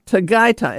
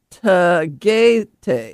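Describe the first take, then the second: First: Tagaytay said tuh-GUY-tie; correct pronunciation. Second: Tagaytay drawn out as tuh-GAY-TAY; pronounced as spelled. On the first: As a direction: say "Tagaytay" with both "ay" as in "eye". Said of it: "it's not spelled that way". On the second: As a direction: slowly read "Tagaytay" with both "ay" as in "day". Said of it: "It looks like". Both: Shown as a demonstration.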